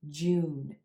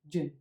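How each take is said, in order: First: The vowel is held a little longer. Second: The vowel is clipped quick and short. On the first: The speaker calls it right. "You want to hold that oo as in blue sound a little bit longer" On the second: The speaker calls it wrong. "often pronounced really quick and short"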